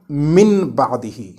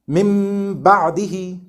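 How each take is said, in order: First: The first word ends in a plain n sound. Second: The first word ends in a nasal m sound. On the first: The speaker calls it wrong. "and not" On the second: The speaker calls it right. "pronounced like the letter meme with closed lips and gunna"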